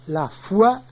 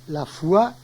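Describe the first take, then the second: The two takes are said the same way.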